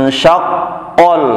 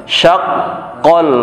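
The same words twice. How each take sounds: The two takes are said the same way.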